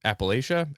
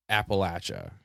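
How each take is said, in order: First: Appalachia said "app-uh-LAY-shuh", pitched questioningly; long-A pronunciation. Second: Appalachia said "app-uh-LATCH-uh"; short-A pronunciation. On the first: Host offering the other pronunciation, Appalachia as "app-uh-LAY-shuh". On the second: Host offering listeners both pronunciations, Appalachia as "app-uh-LATCH-uh". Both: Shown as a demonstration. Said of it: "It's pronounced either way".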